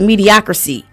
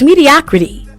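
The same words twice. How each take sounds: First: The word is said with garbled, nonstandard sounds. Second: The word is said with its usual standard sounds. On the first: Someone else mispronounced the word. The speaker calls it wrong. "which isn't a word" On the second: This is the actual word. The speaker calls it right. "the word is mediocrity"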